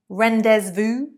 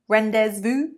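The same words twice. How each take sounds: Both takes have the same delivery.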